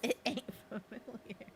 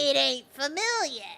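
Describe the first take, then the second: First: It is said in the speaker's ordinary accent. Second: It is said in a put-on Brooklyn accent.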